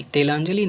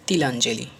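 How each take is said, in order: First: तिलांजलि opened with long "te"; wrong pronunciation. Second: तिलांजलि opened with short "ti"; correct pronunciation. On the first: Teacher showing the class an error, तिलांजलि as "te-lanjali". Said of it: "तिलांजलि नहीं होता है". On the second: Teacher giving the right word, तिलांजलि with short "ti". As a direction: say a clear "ti-lanjali" for तिलांजलि. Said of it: "होता है actually तिलांजलि". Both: Shown as a demonstration.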